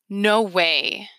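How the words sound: It sounds like a reaction to bad news.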